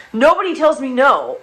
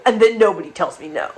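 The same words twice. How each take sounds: First: Nobody tells me no. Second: Said in the usual way. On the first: Shown as a demonstration.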